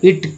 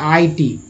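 First: A single short syllable is said as one word. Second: Two separate letter names are said, two syllables. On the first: The speaker calls it right. "इसका उच्चारण दोस्तों इट किया जाता है, जो कि यही सही है" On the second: The speaker calls it wrong. "यानी आई टी इसका उच्चारण करेंगे। लेकिन जबकि ऐसा नहीं है"

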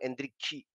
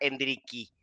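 First: The name ends with a 'chi' sound. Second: The name ends with a plain 'ki' sound. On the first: The speaker calls it right. "Pero ellos dicen como un Endrikchi" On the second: The speaker calls it wrong. "No es que sea Endriki, tal como cual"

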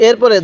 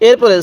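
No difference in how they are said.

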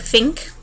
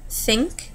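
First: The word begins with an F sound. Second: The word begins with a TH sound. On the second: "The TH"

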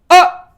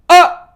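No difference in how they are said.

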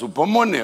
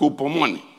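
First: The word begins directly with a vowel sound. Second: The word begins with a rough j sound. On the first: "Si la H es muda" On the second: "si usted la quiere poner como J en el español antiguo"

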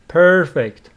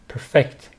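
First: The stress is on the first syllable. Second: The stress is on the second syllable. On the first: It is an adjective: without flaws. "If it is an adjective, perfect, first syllable" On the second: It is a verb: to make something flawless. "If it is a verb"

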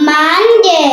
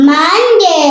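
The two takes are said the same way.

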